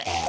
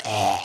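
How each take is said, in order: First: Low gagging sound; choking croak. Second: Low strangled croak; choking croak. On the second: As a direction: choke out a deep croak. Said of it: "that noise". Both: Shown as a demonstration.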